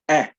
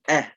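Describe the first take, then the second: First: The vowel is full, clear and hard. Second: The same.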